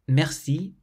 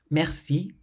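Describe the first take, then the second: No difference in how they are said.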